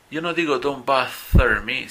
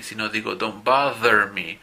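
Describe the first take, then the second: First: "bother" with a voiceless th, like bather with th as in thin; wrong voiceless th. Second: "bother" with a voiced buzzing th, as in the; correct voiced th. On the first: Teacher shows students the wrong pronunciation to avoid. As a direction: say "bother" wrongly with only air on the th. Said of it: "Yo no pronuncio don't bother me". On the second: Teacher shows students the right pronunciation. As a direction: voice the th in "bother" properly. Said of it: "el sonido de la T H, pero con voz". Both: Shown as a demonstration.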